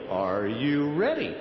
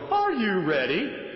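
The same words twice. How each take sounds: First: The voice starts low and then rises. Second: The voice starts high rather than low. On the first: The speaker calls it right. "you start down low" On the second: The speaker calls it wrong. "you don't want to go"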